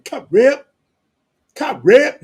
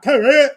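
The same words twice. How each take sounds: First: "cut rip" loud, high, crisp final P; clear "cut rip". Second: "cut rip" loud and high with the ending swallowed; slurred "cut rip". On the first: Showing how West Coast says "cut rip", loud and crisp. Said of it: "So you know when we saying". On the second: Mocking the wrong way of saying "cut rip", loud and slurred. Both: Shown as a demonstration.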